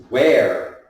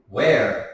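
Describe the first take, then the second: No difference in how they are said.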